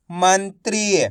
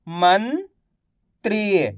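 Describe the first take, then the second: First: "मंत्री" blended into one word; syllables joined. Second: "मंत्री" split slowly, pause before त्री; syllable by syllable. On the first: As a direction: say "मंत्री" whole, without the pause. ("मंत्री" मिलाकर एक शब्द में) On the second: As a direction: sound out "मंत्री" as मन, then त्री. ("मंत्री" को तोड़कर, धीरे-धीरे) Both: Shown as a demonstration. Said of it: "एक एक अक्षर का उच्चारण करके".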